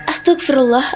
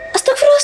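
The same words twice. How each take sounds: First: It is said in a plain, unmocking tone. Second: It is said quickly in a mocking tone. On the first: The person is frightened. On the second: Someone is teasing the frightened person.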